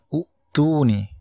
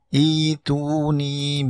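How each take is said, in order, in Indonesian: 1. Kata ini diawali dengan vokal u. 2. Kata ini diawali dengan vokal i. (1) "bacanya bukan u'tuni" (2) "tapi bacanya ituni bikitab"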